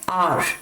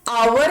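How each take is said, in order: First: The word sounds like 'are', one short syllable. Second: The word sounds like 'hour', with a glide. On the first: The speaker calls it right. "इसे कहा जाता है आर" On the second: The speaker calls it wrong. "इसको आवर नहीं pronounce करेंगे"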